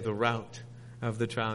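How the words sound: Route is pronounced the American way. "Americans say the route of the trial"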